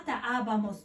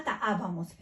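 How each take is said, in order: First: Ta abamos with the first A of abamos held long and stressed. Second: Ta abamos again with the first A of abamos lengthened; stressed first A. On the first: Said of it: "l'accent qu'on fout le premier A". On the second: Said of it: "le premier A". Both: Shown as a demonstration.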